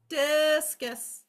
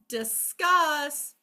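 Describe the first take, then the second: First: The first syllable is longer and stressed. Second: The second syllable is longer and stressed. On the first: It means the object thrown in sport. "the first syllable lasts the longest in discus" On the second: It means to talk something over. "Second syllable lasts the longest"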